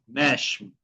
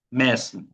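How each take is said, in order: First: "Mesmo" said meshmo, carioca style. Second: "Mesmo" with a plain hissed s, mes-mo; normal S. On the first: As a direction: turn the S of "Mesmo" into sh. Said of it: "pueden hacer sonido de sh". ("Mesmo" con S como sh, estilo Río) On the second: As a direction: keep the S of "Mesmo" as s, without sh. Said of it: "como si fuese una S normal". ("Mesmo" con S normal, como en español) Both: Shown as a demonstration.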